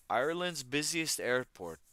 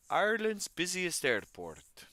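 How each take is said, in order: First: A light, half-hearted stab at an Irish lilt; mock Irish accent, reading the news; bad Irish accent. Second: Hammed-up Irish accent, much higher and louder, slow; terrible Irish accent. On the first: Streamer reading news aloud in a mock Irish accent. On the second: Streamer hamming up the Irish accent for chat. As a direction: overdo the Irish lilt on purpose. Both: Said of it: "That was a terrible Irish accent".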